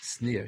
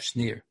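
First: The word begins with a plain s sound. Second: The word begins with an sh sound. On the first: This is the reading in the printed editions. "with a sin" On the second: This is the reading proposed for the old commentator. "He must have had the pronunciation of Schneer"

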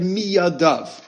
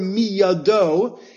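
First: The word ends with an added v sound. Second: The word ends in a plain o vowel. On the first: It was thrown from both hands. "can also be read miyadov" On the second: It was thrown from one hand. "the word miyado"

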